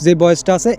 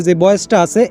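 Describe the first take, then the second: No difference in how they are said.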